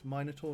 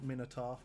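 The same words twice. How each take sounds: First: The word is pronounced the European way. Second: The word is pronounced a non-European way. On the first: "I pronounce it the European way" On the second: "not Minotaur"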